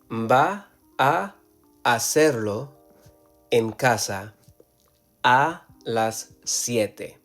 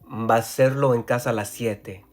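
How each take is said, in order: First: Each word is said separately, without linking. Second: Matching sounds between words are merged together. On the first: The speaker calls it wrong. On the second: The speaker calls it right. "that S can just merge together"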